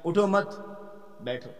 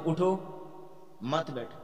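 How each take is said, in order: First: اٹھو مت run together, stop, then بیٹھو; pause after مت. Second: اٹھو on its own, stop, then مت بیٹھو together; pause after اٹھو. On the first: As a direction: break right after مت, leaving بیٹھو alone. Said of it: "یا میں کہوں". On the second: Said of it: "اب میں وقف کروں". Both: Shown as a demonstration.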